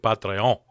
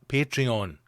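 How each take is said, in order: First: It is said in a put-on foreign accent. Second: It is said in a plain, ordinary accent.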